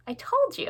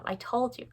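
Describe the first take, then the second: First: High-pitched, triumphant "told you"; gloating. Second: Said in the usual way. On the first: Real, not acted. Book lover boasting about sweeping through the shelves, gloating. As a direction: crow it up high.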